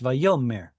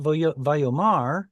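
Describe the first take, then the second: First: The stress falls on the middle syllable. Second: The stress falls on the final syllable. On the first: The speaker calls it right. "notice how this stress moved back" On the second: The speaker calls it wrong. "It's not"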